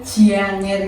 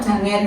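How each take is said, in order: First: It has a y-glide between j and a. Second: It is pronounced plainly, without a y-glide.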